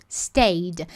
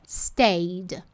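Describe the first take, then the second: No difference in how they are said.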